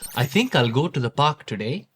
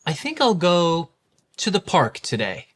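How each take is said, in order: First: It is spoken in an Indian accent, syllable-timed. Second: It is spoken in a standard American accent. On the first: "now hear the difference in a standard Indian accent" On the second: "listen to this sentence in a standard American accent"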